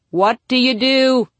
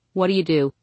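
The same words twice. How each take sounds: First: Slow, loud and high, every word punched up to DO; mock-dramatic repeat. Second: Said in the usual way. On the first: Narrator to driver facing John Travolta, slow mock-dramatic plea on DO. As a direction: stretch it out into a big, loud DO.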